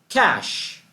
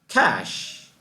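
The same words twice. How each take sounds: No difference in how they are said.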